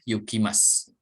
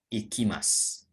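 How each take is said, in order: First: The word begins with a 'yoo' sound. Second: The word begins with an 'ee' sound. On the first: "Atau dibaca yu juga boleh" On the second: "Ini dibacanya i"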